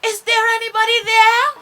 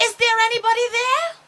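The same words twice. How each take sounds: First: Loud, high call into the darkness. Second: Loud, high, quick call. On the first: A narrator's reading. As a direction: call out across the sky. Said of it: "And she called out". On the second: Acted. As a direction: shout across the sky to find them. Starchild calls out into sky.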